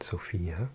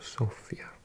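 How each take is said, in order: First: The stress falls on a later syllable. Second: The stress falls on the first syllable. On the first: This is how English speakers say it. The speaker calls it wrong. "I used to mispronounce this. Well, I think in English we call it Sofia" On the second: This is how Bulgarians say it. The speaker calls it right. "with the accent on the O"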